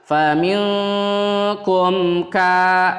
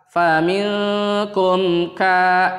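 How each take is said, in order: The two takes are said the same way.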